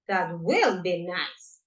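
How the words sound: The word will is stressed. "The only thing we're going to change is the stress of the of the modal, that is will"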